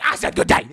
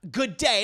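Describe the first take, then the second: First: Loud, rasped-out final word; emphatic dismissal. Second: Said in the usual way. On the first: Acted. Leanne repeats her dismissal to the protesting women, loud and emphatic. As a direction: belt it out to end the argument.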